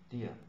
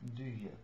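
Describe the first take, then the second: First: The two words blur into one short syllable. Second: Both words are said fully and clearly. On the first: "they don't say do ya, they say dear" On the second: "This is the main pronunciation"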